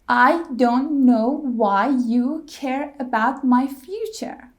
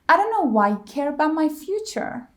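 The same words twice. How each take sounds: First: Every word is stressed equally. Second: Only care and future are stressed. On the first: "every word was stressed" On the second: "Care and future"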